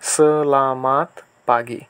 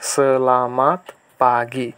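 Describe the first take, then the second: No difference in how they are said.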